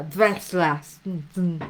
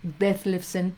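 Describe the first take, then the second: First: Detlefsen slow, German sounds, near dveslasn; German pronunciation. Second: Detlefsen said slowly, Spanish style; drawn-out Spanish-style Detlefsen; Spanish pronunciation. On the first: Retold or imitated. Authors correcting the teacher, slow German Detlefsen. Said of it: "no se pronuncia así, se pronuncia". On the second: Shown as a demonstration. Teacher showing her own way, slow Detlefsen. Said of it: "Yo creo que se debe decir así".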